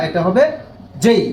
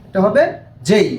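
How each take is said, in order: Both takes have the same delivery.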